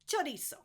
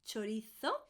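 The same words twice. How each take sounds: First: The z is said without a th sound. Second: The z is said with a th sound. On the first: This is how it is said in Latin America. "In Latin America, in the south of Spain, in the Canaries, they would say chorizo" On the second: This is how it is said in Spain. "That's why I'm doing the th at the end"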